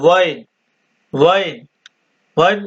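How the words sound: It is said in Kuwaiti Arabic, starting with w. This is the form used in Kuwaiti dialect. "Kuwaiti আরবিতে ব্যবহার হয়"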